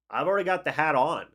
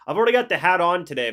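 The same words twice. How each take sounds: First: Said in the usual way. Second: Loud, fast, fired up; excited. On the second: Real, not acted. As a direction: blurt it out proudly. Excited about wearing his hat.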